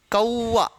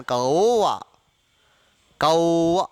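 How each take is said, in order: First: "कौआ" as ka-oo-aa; old-style "ka-oo-aa" for कौआ; wrong, old pronunciation. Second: "कौआ" with open ao, lower pitched; correct modern pronunciation. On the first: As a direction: say कौआ with a clear oo glide. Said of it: "कौआ है ही नहीं वो". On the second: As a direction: say कौआ as "kao-aa", no oo glide. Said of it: "औ का उच्चारण". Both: Shown as a demonstration.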